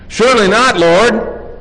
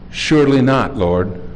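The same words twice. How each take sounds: First: It is said forcefully, as an exclamation. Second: It is said calmly, without force.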